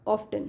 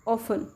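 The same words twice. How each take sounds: First: "often" as OFF-ten; sounded T. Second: "often" as OFF-en; silent T. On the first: Teacher showing learners what not to say, T sounded. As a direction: say "often" with the T pronounced. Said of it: "It's not often". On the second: Teacher giving learners the word, silent T. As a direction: say "often" without the T. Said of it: "टी silent है". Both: Shown as a demonstration.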